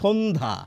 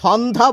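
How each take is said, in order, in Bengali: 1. প্রথম স্বরধ্বনিটি একটি 'o' ধ্বনি। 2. প্রথম স্বরধ্বনিটি একটি খোলা 'a' ধ্বনি। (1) "এখানে একটি ওকার হবে। ... আমরা বলি সন্ধ্যা, শো শো" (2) "আমরা কিন্তু সন্ধ্যা বলি না"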